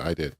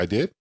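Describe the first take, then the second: First: It falls at the end, like a statement. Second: It rises at the end, like a question.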